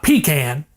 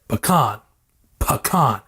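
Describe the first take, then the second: First: "pecan" said as PEE-can, stress on the first syllable; "pecan" with a flat a, PEE-kan; "pecan" the rejected way, PEE-kan; wrong pecan. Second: "Pecan" said as puh-KAHN, stress on the second syllable; "Pecan" with a broad ah, puh-KAHN; "Pecan" as puh-KAHN, not PEE-can; proper pecan. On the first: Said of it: "Not pecan, because that's fucking wrong". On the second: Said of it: "I'm saying it like it should be said". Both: Shown as a demonstration.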